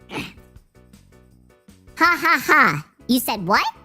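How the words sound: It is read in a put-on character voice.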